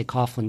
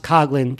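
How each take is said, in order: First: Coughlin said as COFF-lin. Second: Coughlin with a hard g, no f; Coughlin pronounced COG-lin. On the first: Podcaster admitting a likely slip on the name, Coughlin as COFF-lin. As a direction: read Coughlin by its spelling, "gh" as f. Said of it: "I'm probably gonna say Coughlin". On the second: Podcaster correcting the name for listeners, Coughlin as COG-lin. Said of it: "it's pronounced Coughlin". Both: Shown as a demonstration.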